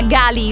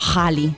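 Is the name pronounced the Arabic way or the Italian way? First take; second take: Italian; Arabic. First: The name is said with an Italian pronunciation. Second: The name is said with an Arabic pronunciation. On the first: The speaker calls it wrong. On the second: The speaker calls it right.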